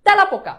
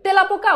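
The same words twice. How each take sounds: First: তেলাপোকা said as "tæ-la-poka" with an open æ, higher and firm; teacher's answer, তেলাপোকা as "tælapoka"; correct spoken pronunciation. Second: তেলাপোকা said as "te-la-poka" with a close e; teacher's as-spelt option for তেলাপোকা, "telapoka"; pronounced as written. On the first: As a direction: punch out তেলাপোকা starting with "tæ" as in "tap". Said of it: "এ এর উচ্চারণটা জফলা আকার হয়েছে". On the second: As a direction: offer তেলাপোকা with a pure "te" at the start. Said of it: "উচ্চারণটা কি তেলাপোকা না তেলাপোকা". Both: Shown as a demonstration.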